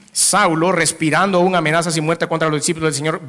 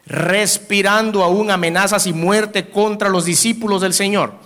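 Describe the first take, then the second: First: Said in the usual way. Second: Slow, raised, each word leaned on; slow weighty reading. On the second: Shown as a demonstration. Preacher reading Saul's threats to the congregation, slow and weighty. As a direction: read it out slowly, letting "amenazas y muerte" land heavy.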